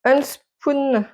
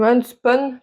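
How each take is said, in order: First: "Unspun" ending in a long "spoon" sound; tentative pronunciation. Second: "unspun" with a short final vowel; alternative pronunciation. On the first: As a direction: try "Unspun" as "un-spoon", slow and higher. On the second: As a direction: try "unspun" as "un-spon", unsure of it. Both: Shown as a demonstration. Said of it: "je sais pas comment on dit".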